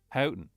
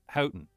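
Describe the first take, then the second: No difference in how they are said.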